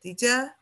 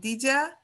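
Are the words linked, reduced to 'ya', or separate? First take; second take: reduced; reduced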